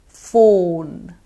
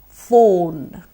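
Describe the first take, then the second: No difference in how they are said.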